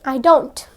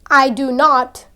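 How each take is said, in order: First: The words are contracted into a shorter form. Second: Each word is said fully and separately. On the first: "use reduced forms" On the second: "Instead of saying"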